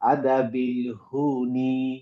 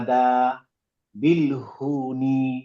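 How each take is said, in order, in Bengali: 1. বিরতিটি 'adhabil'-এর পরে, 'hun'-এর আগে আসে। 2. বিরতিটি 'adha'-র পরে, 'bilhun'-এর আগে আসে। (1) "আমি চেষ্টা করব একটা ওয়ার্ড একবারে পড়তে" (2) "এটা ভুল হয়ে যাবে। বিলহুনি একটা শব্দ না।"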